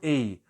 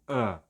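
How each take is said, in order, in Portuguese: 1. A vogal é plena e claramente pronunciada. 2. A vogal é fraca e quase não se ouve. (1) "na frase eu não pronuncio a" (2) "eu pronuncio a"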